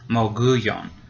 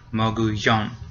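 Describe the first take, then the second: First: The stress is on the second-to-last syllable. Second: The stress is on the last syllable. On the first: The speaker calls it wrong. "the second to last syllable would get stressed. So it would be mogullon" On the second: The speaker calls it right. "It has an accent mark. So it's the last one"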